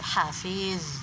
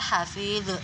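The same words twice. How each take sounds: First: The final consonant is held, lips rounded, no bounce. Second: The final consonant is bounced audibly. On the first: The speaker calls it right. "jadi hafiz tetap mencucu" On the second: The speaker calls it wrong. "Zo itu bukan qalqalah juga, jangan dibaca hafiz"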